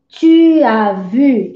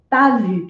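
First: The pronoun is said fully before the verb. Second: The pronoun's vowel is dropped and joined on. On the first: "em vez de falar assim, ó" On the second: "eles engolem, põe um apostrofe, fala"

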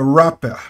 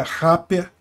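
First: The first R sounds like an English R. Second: The first R sounds like a Portuguese R. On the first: The speaker calls it right. "é rapper" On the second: The speaker calls it wrong. "Eu errei, foi a pronúncia do R, tá? Então não é rapper"

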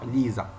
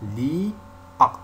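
First: A z sound links the two words. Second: No z sound links the two words. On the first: The speaker calls it wrong. "On ne dit pas l'ISA. On ne fait pas la liaison" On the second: The speaker calls it right. "Et aussi l'IA"

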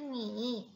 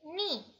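First: The pitch dips low and then rises. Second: The pitch falls sharply from high to low. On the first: It means you. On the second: It means to drown.

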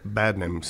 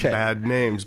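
First: It is said run together as one word. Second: It is said as two separate words. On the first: The speaker calls it right. "It's all one word" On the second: The speaker calls it wrong. "not two words. Okay. Not Bad Names"

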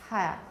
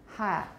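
Both takes have the same delivery.

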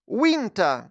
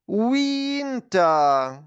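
First: The word is said quickly. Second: The word is said slowly. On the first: "а тепер швидко" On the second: "а тепер давайте промовимо це слово повільно"

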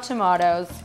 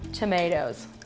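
First: It is said with a British pronunciation. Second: It is said with an American pronunciation. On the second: "I'm saying it like you guys"

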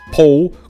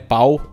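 First: The vowel is a closer 'oh' sound. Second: The vowel is an open 'ah-oo' glide. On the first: The speaker calls it right. "é pou" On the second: The speaker calls it wrong. "Não é pau"

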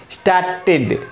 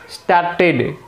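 Both takes have the same delivery.

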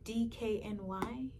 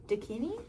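First: The name is said letter by letter. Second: The name is said as one word. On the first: "if you didn't get what I meant by Dakini" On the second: "someone once laughed at me for saying it like this"

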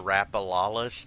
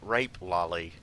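First: The name is said ending in 'lolist'. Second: The name is said ending in 'lolly'. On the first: This is the official pronunciation. "I know it's pronounced the rapalolist" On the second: This is a joking nickname.

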